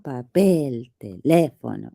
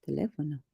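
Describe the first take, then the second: First: Papel, teléfono with PEL and LÉ overblown and stretched; exaggerated stress. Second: Said in the usual way. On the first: Mimicking partner's demo, exaggerated stress in papel, teléfono. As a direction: overdo the second syllable of papel, teléfono. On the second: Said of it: "It's not papel, teléfono. It's teléfono".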